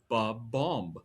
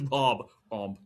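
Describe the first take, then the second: First: The name begins with a short 'ba' sound. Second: The name begins with a full 'bob' sound. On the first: The speaker calls it wrong. "I was always saying ba-bomb, like you guys are. Wrong" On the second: The speaker calls it right. "Its name is Bob Omb"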